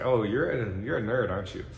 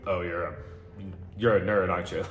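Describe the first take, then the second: First: It is said with a smiling, playful tone. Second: It is said flatly, without a smile.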